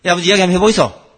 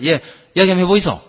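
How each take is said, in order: First: Fast, louder Gyeongsang dialect retort, 이야기 falling; Gyeongsang son. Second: Fast, louder Gyeongsang dialect reply, 이야기 falling; Gyeongsang son. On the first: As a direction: rattle it off in Gyeongsang dialect, cutting the talk short. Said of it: "그 아들 앉아가 뭐라 하는지 압니까?". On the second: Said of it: "아들 앉아가". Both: Retold or imitated.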